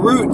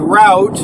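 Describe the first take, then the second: First: It is said sounding like root. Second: It is said with the American pronunciation. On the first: "Is it part of a tree?" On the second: "Americans called it route"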